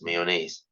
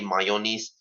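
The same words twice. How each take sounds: First: The last syllable sounds like 'nays'. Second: The last syllable sounds like 'knees'. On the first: The speaker calls it right. "this word for the love of God is pronounced as mayonnaise" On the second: The speaker calls it wrong. "do not ever say mayonnaise"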